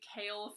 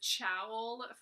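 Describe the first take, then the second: First: The name begins with a k sound. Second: The name begins with a ch sound. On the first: The speaker calls it right. "A character name that you have been pronouncing wrong" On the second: The speaker calls it wrong. "I totally pronounced it as Chowl"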